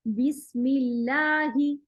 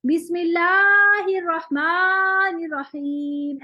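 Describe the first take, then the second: First: बिस्मिल्लाही with the long ही held only two counts; slow recitation, just two counts; short madd. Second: बिस्मिल्लाहिर्रहमानिर्रहीम with every vowel stretched far too long; slow, louder, overstretched recitation; wrong overlong madd. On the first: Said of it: "बस इतना". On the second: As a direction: exaggerate the lengthening as a bad example. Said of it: "ऐसे नहीं पढ़ना". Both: Shown as a demonstration.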